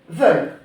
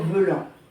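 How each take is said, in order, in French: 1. Le mot se termine sans voyelle nasale. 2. Le mot se termine par une voyelle nasale. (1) "tu dis comme s'il y avait écrit juste ça" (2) "le principal pour toi, c'est de ne pas dire veulant"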